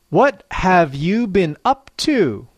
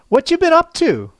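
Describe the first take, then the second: First: It is said slowly and clearly, word by word. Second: It is said quickly with natural linking and intonation. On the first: "I will say each slang expression slowly and clearly" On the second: "I'll say the same expression at natural speed and with natural intonation"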